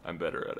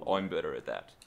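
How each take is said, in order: First: Said in the usual way. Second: Mock Cockney, pitched lower; put-on Cockney vowels; Cockney accent. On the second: Shown as a demonstration. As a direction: show off an amateur Cockney. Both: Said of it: "I'm better at Cockney accent".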